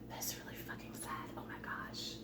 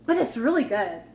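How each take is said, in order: First: A hushed, voiceless confiding aside; whispered aside. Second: Said in the usual way. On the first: Real, not acted. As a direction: lean in and whisper it like a secret. Whispered aside after upbeat praise.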